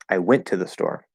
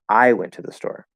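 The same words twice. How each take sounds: First: The stress falls on the word went. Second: The stress falls on the word I. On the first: "If you say went" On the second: "if you make I the focus word"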